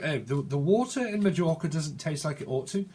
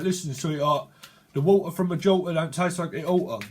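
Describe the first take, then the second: First: Put-on careful proper English accent; mock-proper English enunciation; speaking proper. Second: Broad Cockney with dropped t's; hammed-up Cockney geezer. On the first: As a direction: sound every t in proper English. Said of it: "Someone speaks proper". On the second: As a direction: lay on the Cockney patter. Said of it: "a bit of Cockney slang".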